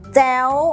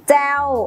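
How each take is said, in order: First: The syllable is said on a high tone. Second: The syllable is said on a falling tone. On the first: "มีเสียงวรรณยุกต์ตรี" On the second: "มีเสียงวรรณยุกต์โท"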